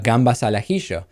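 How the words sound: It is said with an Argentine Spanish accent.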